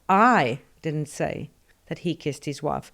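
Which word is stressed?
I. The stress falls on the word I. Someone else said it. "presupposes somebody said it, but it wasn't me"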